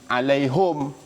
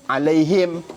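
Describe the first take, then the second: First: The last syllable has the vowel u. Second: The last syllable has the vowel i. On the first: "dia baca alaihum" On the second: "Ada sebahagian alaihim"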